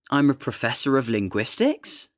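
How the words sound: The pitch rises at the end of the sentence. "the intonation tends to rise at the end of a sentence"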